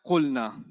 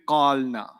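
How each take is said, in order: First: "Qulna" with a short u, no long vowel; alif dropped. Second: "qalna" with a long aa before the l; long vowel before sukoon. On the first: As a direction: say "Qulna" compactly as qul-na. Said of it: "the alif is causing this problem". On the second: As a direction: stretch qaal, then add na in "qalna". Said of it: "a long sound followed by a sukoon". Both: Shown as a demonstration.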